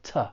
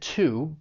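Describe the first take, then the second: First: The word has a reduced, unstressed vowel. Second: The word has a full, stressed vowel. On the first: "when it's unstressed, and it's going to sound more like t" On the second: "When you're stressing it, it's pronounced, just like I said"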